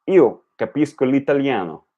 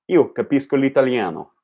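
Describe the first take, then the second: No difference in how they are said.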